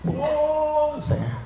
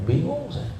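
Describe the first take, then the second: First: "Bingung saya" stretched very slowly and high; milk the confusion, long and whining; mock-bewildered groan, "Bingung saya" dragged out; drawn-out confusion. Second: High, puzzled sigh of confusion; a touch of mock bewilderment; confused. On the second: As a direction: says "Bingung saya" in a high quick puzzled voice.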